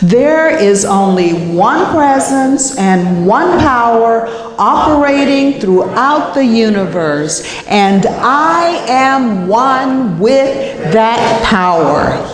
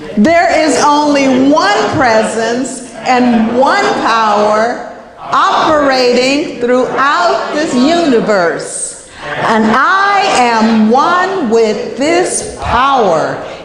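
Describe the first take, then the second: First: It is said with ordinary, calm energy. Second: It is said with extra force and energy.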